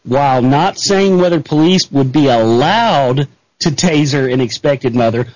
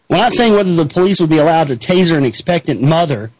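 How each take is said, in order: First: It is read very slowly. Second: It is read at normal speed.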